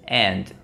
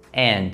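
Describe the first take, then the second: First: The word ends cleanly on the D sound. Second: The word ends cleanly on the D sound.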